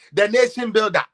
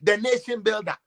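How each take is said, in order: First: "The nation builder" with "nation" hit louder; mock proclamation of "The nation builder", "nation" stressed; louder mock praise. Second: Said in the usual way. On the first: Shown as a demonstration.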